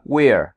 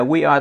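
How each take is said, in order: First: "we're" blended into one drawn-out glide; contracted we're. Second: "we are" as two separate words; full we are. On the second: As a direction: keep "we" and "are" apart. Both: Shown as a demonstration. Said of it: "we are đọc là we're".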